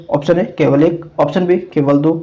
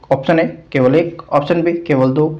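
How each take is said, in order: Both takes have the same delivery.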